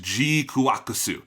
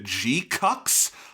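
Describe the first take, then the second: First: The title is said like 'gee-kwa-koo-soo'. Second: The title is said like 'gee-cucks'. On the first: The speaker calls it right. "which tells you how to pronounce it, it is G-kuakusu" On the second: The speaker calls it wrong. "It kind of looks like you would pronounce it G-cucks"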